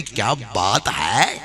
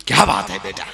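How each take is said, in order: First: Slow relishing. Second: Whispered delight. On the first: Bapu savours the kitchen stock. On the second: Bapu talks to himself in the kitchen. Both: Retold or imitated.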